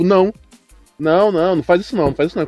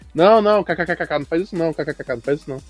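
First: It is said straight, without laughter. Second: It is said while laughing.

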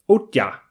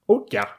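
First: The middle consonant sounds like ty. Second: The middle consonant sounds like ty.

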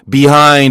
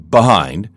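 First: The first vowel is full and clearly spoken. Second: The first vowel is reduced, as in fast speech.

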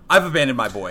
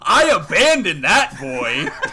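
First: It is said flat, without emotion. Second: It is said happily, with amusement.

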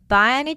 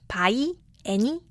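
First: The two words are linked as one chunk. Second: The two words are said separately. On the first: The speaker calls it right. "by 하고 any가 마치 한 단어인 거 한 덩어리인 것처럼" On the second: The speaker calls it wrong. "by any 아니고"

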